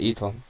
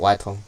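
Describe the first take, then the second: First: The name starts with a plain vowel sound. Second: The name starts with a 'w' sound. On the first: This is how the company says it. The speaker calls it right. "That's how they pronounce it" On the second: This is not how the company says it. The speaker calls it wrong. "Not Whitong"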